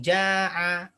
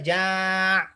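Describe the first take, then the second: First: The word ends with a short 'a' vowel. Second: The word ends on a consonant, no vowel. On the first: The speaker calls it right. "yang fiil madhi dikasih harokat ujungnya fathah" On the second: The speaker calls it wrong. "nggak bisa ja' gitu nggak bisa"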